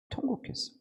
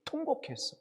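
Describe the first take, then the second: First: Breathy whisper of the word 통곡했어, no voice; whispered wail. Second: Wailed. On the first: Pastor telling how Hezekiah wept, hushed whisper. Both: Shown as a demonstration. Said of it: "심히".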